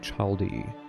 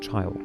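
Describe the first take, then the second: First: The word ends with an extra vowel sound. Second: The word ends on the consonant d. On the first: The speaker calls it wrong. "you do not say childy" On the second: The speaker calls it right. "this can only be pronounced child"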